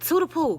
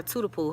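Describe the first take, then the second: First: High-pitched call of a nickname. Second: Said in the usual way. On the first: Retold or imitated. Grandma waking sleeping granddaughter, high urgent calling out. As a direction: call her name high to rouse her.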